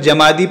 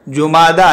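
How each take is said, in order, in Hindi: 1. यह 'ja' से शुरू होता है और 'ee' पर खत्म होता है। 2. यह 'ju' से शुरू होता है और 'ah' पर खत्म होता है। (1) "कुछ जीम को फतहा देकर जमादी पढ़ते हैं" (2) "जुमादा है फ़ुआला के वज़न पर"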